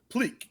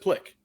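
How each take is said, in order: First: The name is said with a long vowel. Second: The name is said with a short vowel. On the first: The speaker calls it wrong. "you did like two e's" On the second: The speaker calls it right. "so it's just plick"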